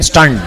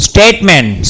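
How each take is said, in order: First: સ્ટન્ટ said as stunt, with a short a and retroflex nt; corrected word. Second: સ્ટેટમેન્ટ said as statement, steɪtment, the wrong reading; first read the word as સ્ટેટમેન્ટ, statement with a t and m-e-n-t; misread word. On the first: Teacher corrects the misread word to સ્ટન્ટ for the class, clear and deliberate. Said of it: "આને કહેવાય સ્ટન્ટમેન". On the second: Teacher misreads the textbook word as સ્ટેટમેન્ટ, plain reading voice. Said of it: "આ સ્ટેટમેન્ટ નહીં". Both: Shown as a demonstration.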